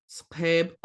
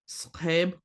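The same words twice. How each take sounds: The two takes are said the same way.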